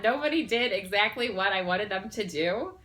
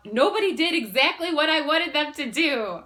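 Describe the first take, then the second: First: Said in the usual way. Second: High, loud, blurting it out; blurted out. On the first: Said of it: "did I just say that?". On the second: Retold or imitated. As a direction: burst it out all at once. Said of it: "blurted out".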